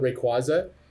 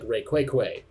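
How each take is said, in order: First: The name ends with a 'za' sound. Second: The name ends with a 'kway' sound. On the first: "I've always called it Rayquaza" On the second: "he would call pronounce it like Rayquaque"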